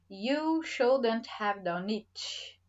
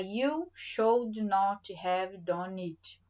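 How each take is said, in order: First: Should and not merge into one contracted word. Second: Should and not are said as separate words. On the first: "Com a forma contraída" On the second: "Vou falar you should not have done it"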